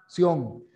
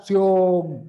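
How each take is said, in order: First: Said in the usual way. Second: "sion" punched much louder, with its final N ringing; loud syllable demo. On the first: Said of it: "Ahí viene". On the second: Shown as a demonstration. Teacher projects "sion" so the class hears the final N. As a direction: hit "sion" hard and clear. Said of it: "Y la otra".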